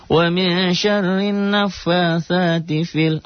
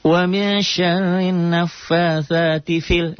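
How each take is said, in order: First: High slow chant stretching fi; recitation demo, long vowel. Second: High slow chant with short fi; recitation demo, short vowel. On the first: Teacher showing the correct long reading, high chant. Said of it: "Padahal itu matobi'i". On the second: Teacher showing the wrong short reading, high chant. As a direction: recite it clipping the long vowel. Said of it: "nggak panjang". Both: Shown as a demonstration.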